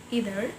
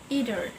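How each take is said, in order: First: The word is said in an American accent. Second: The word is said in an American accent.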